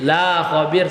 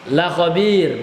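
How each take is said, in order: First: The vowel of 'la' is drawn out long. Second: The vowel of 'la' is kept short. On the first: God will not inform them of their state. The speaker calls it wrong. "Kalau dia dibaca panjang" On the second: God will surely inform them of their deeds. The speaker calls it right. "kalau dibaca pendek berarti lamu taukid dia"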